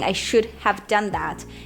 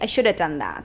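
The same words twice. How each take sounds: First: Should have is said as two full words. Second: Should have is reduced to one word. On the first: "instead of saying" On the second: "native speakers will say"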